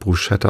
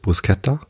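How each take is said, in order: First: The middle consonants sound like 'sh'. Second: The middle consonants sound like 'sk'. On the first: The speaker calls it wrong. "viele sprechen es deshalb Bruschetta aus, weil SCH ist halt" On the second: The speaker calls it right. "die korrekte Aussprache ist Bruschetta ... das S gehört halt nicht zum CH dazu"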